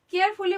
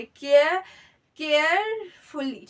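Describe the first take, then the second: First: Said in the usual way. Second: carefully drawn out slowly, part by part; syllable-by-syllable demo. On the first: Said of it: "बोलने के लिए हमें तीन syllable". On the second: Shown as a demonstration. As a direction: stretch carefully to show its separate syllables. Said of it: "तीन syllable की जरूरत".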